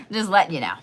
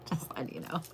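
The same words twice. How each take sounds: First: Said in the usual way. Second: Soft breathy whisper of just letting you know; whispered catchphrase. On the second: Shown as a demonstration. Copying a creator's catchphrase, whispered with a laugh. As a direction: whisper the phrase with a little laugh. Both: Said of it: "wanting to say things like he says".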